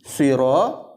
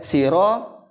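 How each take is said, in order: First: The s is heavy and emphatic, like Arabic sad. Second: The s is plain and light, like Arabic sin. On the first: The speaker calls it right. "itu huruf sod" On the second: The speaker calls it wrong. "itu kenanya huruf sin"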